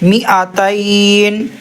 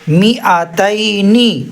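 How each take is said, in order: First: The word ends on a bare 'n' sound. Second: The word ends with a final 'ni' vowel. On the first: The reader stops at this word. "नून में जज़म के साथ वक़्फ़ करेंगे" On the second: The reader continues without stopping. "ज़ेर नी"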